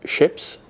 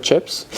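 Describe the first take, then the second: First: "ships" with a soft sh sound for ch; Dutch ch as sh. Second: "chips" with a clear hard ch; plain ch. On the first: Retold or imitated. Imitating partner's old Dutch accent, soft sh. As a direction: say "ships" the way a Dutch speaker says chips. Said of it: "you would say, like". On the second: Shown as a demonstration. Correcting partner, crisp ch in "chips". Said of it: "instead of".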